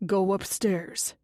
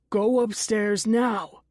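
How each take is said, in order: First: Said in the usual way. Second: Slow, louder commanding order; shouted order. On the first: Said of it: "Dennis says". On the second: Acted. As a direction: bark it out slow and firm. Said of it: "he shouts".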